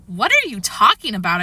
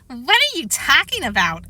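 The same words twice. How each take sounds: First: Said in the usual way. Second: Higher, singsong mocking echo; teasing parrot voice, pitched up; mocking mimicry. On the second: A narrator's reading. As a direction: mimic the question to tease. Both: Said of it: "Alex mimicked".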